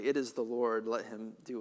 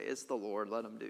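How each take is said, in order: First: It is said in a humble, accepting tone. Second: It is said in a careless, dismissive tone. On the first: He accepts the judgment with humility. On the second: He does not care about the judgment.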